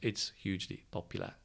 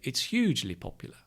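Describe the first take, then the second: First: Hugely gets no stress at all. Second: Hugely gets a lighter, natural stress. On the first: "If you don't stress it" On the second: "in reality, when you speak"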